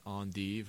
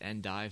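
First: The word is said in a fancy, showy way. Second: The word is said in a plain, everyday way. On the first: The speaker is showing off. The speaker calls it wrong. "not endive, right? Don't be a pretentious douchebag" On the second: This is the ordinary way to say it. The speaker calls it right. "It's endive"

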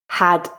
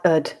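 First: The word begins with a clear h sound. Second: The word begins without any h sound. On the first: "I'll read the full form" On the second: "the weak form with the h sound dropped"

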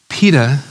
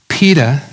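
No difference in how they are said.

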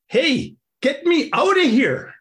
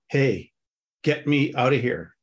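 First: It is read lively, with much expression. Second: It is read flatly, with little expression. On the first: "the story becomes animated and alive" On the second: "You know how some readers just kind of"

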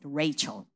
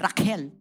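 First: The middle consonant is a ch sound. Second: The middle consonant is a k sound. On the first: This is how Americans say the name. "The Americans pronounce it Rachel" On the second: This is what the mother calls her when angry. "whenever she is mad at me, she calls me Raquel"

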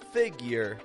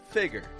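First: A y sound comes before the second vowel. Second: No y sound comes before the second vowel.

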